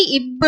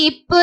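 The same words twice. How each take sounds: First: "இப்பு" voiced as ibbu; pressed B sound. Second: "இப்பு" with an unvoiced p; P sound. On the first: Teacher modelling letter B, "இப்பு" pressed into ibbu. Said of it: "அதை அழுத்தி இப்பு அப்படின்னு". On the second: Teacher modelling letter P, "இப்பு" with a p. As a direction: say "இப்பு" with a light, crisp p sound. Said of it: "பிக்கு சொல்லும் போது இப்பு அப்படின்னு படிக்கணும்". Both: Shown as a demonstration.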